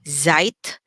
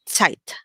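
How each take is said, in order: First: It begins with a buzzing Z sound. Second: It begins with a TS sound. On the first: The speaker calls it wrong. "instead of saying" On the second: The speaker calls it right. "pronounced like a T and a Z together. Ts"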